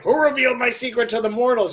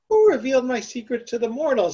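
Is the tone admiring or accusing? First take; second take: accusing; admiring. First: The tone sounds reproachful and accusing. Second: The tone sounds pleased and admiring. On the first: Revealing it was not allowed. "You weren't supposed to do that" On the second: The one who revealed it deserves a reward. "oh, ... I want to give that guy a prize"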